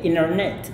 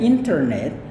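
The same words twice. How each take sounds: First: The T after the N is dropped. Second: The T after the N is clearly pronounced.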